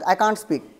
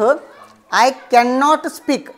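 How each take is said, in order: First: Cannot is shortened into one contracted word. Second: Cannot is said in full as two words. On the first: "ते असं बोलतील" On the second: "आपण बोलू शकतो"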